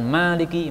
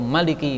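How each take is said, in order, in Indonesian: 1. Vokal pertama dibaca panjang. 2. Vokal pertama dibaca pendek. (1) "Maliki manya panjang" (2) "Maliki manya pendek"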